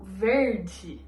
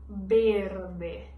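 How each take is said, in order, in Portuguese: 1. A palavra começa com som de v. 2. A palavra começa com som de b. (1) "Enquanto em português a gente faz o verde" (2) "o V a gente vai pronunciar ele como se fosse a letra B"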